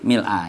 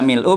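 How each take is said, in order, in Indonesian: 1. Kata ini berakhir dengan vokal a. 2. Kata ini berakhir dengan vokal u. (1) "bisa dibaca mil mil'a" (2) "bisa dibaca mil'u"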